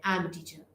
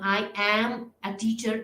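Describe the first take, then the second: First: The word 'am' is said with a reduced vowel. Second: The word 'am' is said with a full vowel. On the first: The speaker calls it right. "जैसे कि हम connected speech में इस तरह से बोलते हैं" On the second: The speaker calls it wrong. "हम आई एम अ टीचर नहीं कहते"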